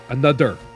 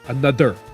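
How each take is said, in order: First: The th is replaced by a strong D sound. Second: The th is replaced by a strong D sound.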